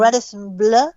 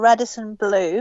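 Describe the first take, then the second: First: The name is said with a French accent. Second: The name is said with an English accent.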